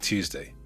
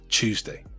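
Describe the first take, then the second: First: The word begins with a plain T sound. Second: The word begins with a CH sound.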